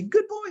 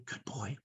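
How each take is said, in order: First: Put-on high-pitched cheer for a child; high, proud parent voice; delighted praise. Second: Low, hushed approval; gentle quiet murmur; soft praise. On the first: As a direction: praise a little one in a high, happy voice. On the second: Retold or imitated. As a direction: praise a child under your breath. Praising child after whispering.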